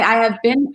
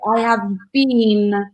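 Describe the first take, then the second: First: The vowel in 'been' is short. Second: The vowel in 'been' is long, like 'bean'. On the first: "She's from America. She would say I have been" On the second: "exactly drag it out a little bit"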